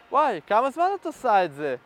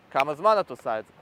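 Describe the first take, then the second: First: "כמה זמן את עושה את זה?" said higher, rising up insecurely at the end. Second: "כמה זמן את עושה את זה?" lower, settling down at the end like a statement; falling tone. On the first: Coach demonstrating the wrong insecure tone, higher rising question. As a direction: push the pitch up toward the end like an unsure question. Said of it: "הטון דיבור עולה למעלה". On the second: Coach demonstrating the right confident tone, lower falling end. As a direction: drop the pitch down at "זה", confident and grounded. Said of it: "יורד למטה זה". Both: Shown as a demonstration.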